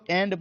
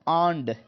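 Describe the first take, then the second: First: The first vowel is an 'eh' sound. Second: The first vowel is an 'ah' sound. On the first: The speaker calls it wrong. "इसको हम लोग एंड पढ़ते रहते हैं" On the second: The speaker calls it right. "अगर सही देखा जाए तो इसका जो प्रोनाउंसिएशन है"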